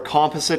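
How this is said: It is said the Canadian way.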